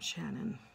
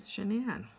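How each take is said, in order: First: The name is said like 'Shannon'. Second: The name is said like 'Sha-nann'. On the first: Her mother says it this way. "she pronounces her name as Shannon" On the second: Her husband says it this way. "pronounces it Shanann"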